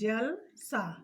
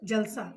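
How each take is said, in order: First: The word has a short pause in the middle. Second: The word is said smoothly without a pause. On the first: It means like water. "बीच में हल्का सा विराम हो गया" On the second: It means a celebration. "एक साथ हम बोलते हैं बिना रुके हुए"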